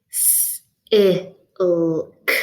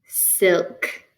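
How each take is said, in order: First: S, i, l, k as single sounds, S a long hiss; separated phonemes. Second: Said in the usual way. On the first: Shown as a demonstration. Teacher giving four phonemes to blend, separated phonemes. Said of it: "I'm going to give you four phonemes". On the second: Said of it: "See if you can blend this word".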